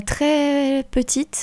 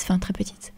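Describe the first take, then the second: First: "très" stretched out long and higher; emphatic TRÈS. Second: "très petite" dropped very soft, almost whispered; quiet aside. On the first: Guest recalls her childhood, "très" stretched for emphasis. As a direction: draw "très" right out before "petite". Emphasis, then softened self-correction. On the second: Speaker qualifies her own childhood memory, hushed aside. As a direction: tuck "enfin très petite" under your breath. Hedging aside after the emphasis. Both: Real, not acted.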